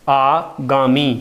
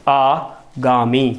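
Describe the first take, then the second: Both takes have the same delivery.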